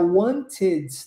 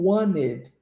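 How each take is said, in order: First: The T in the middle is clearly pronounced. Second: The T in the middle is dropped. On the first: "ao invés de pronunciar wanted to" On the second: "eu omito o som desse T no wanted e digo wanted"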